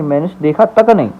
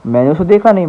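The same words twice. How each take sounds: First: तक said with a firm falling weight; stress on तक. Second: Said in the usual way. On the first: Shown as a demonstration. Teacher contrasting the sentence with stress on तक. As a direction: hit तक to make it forceful. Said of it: "थोड़ा उसको importance दे रहे हैं". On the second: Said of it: "जो भी थोड़ा जोर लगा रहे हैं".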